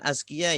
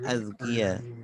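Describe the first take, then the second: First: The consonant before k is a plain z. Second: The consonant before k is a voiced th-like sound. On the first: The speaker calls it wrong. "bukan azkiyah ya" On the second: The speaker calls it right. "yang benar azkiyah"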